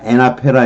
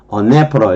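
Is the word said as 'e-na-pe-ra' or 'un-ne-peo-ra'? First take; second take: e-na-pe-ra; un-ne-peo-ra. First: It is said as e-na-pe-ra with open vowels. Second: It is said as un-ne-peo-ra with 'uh' vowels. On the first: The speaker calls it wrong. "이렇게 발음하면 안 된다고" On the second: The speaker calls it right. "언네퍼라 이렇게 발음해요"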